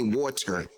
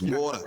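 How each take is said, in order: First: Water is said in a standard American accent. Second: Water is said in a Philadelphia accent.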